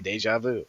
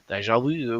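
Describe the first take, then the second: First: It is said with an American English pronunciation. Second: It is said with a French-style pronunciation. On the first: "we just say deja vu" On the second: "We don't say it like that"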